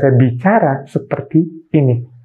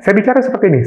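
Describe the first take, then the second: First: The words are broken apart with short pauses. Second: The words run together quickly without breaks. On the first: "Kata sama, nada tidak tinggi, hanya memotong-motong kata" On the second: "sama nadanya cepat, terus-terus"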